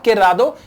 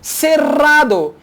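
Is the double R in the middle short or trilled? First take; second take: short; trilled. First: The double R is a short single tap. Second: The double R is a long rolled trill. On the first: The speaker calls it wrong. "I'm sorry, not cerrado" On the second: The speaker calls it right. "Double R sounds like rrr"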